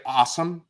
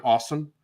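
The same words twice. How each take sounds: First: Awesome with open "ah", as "AH-sum"; Midwest pronunciation. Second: Awesome with rounded "aw", as "AW-sum"; New York pronunciation. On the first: Co-host showing what Midwest friends gave him, "AH-sum". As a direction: open the first vowel of awesome to "ah". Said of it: "I'll say awesome instead of awesome". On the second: Co-host giving the New York contrast, awesome as "AW-sum". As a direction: round the first vowel of awesome to "aw". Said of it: "instead of awesome". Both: Shown as a demonstration.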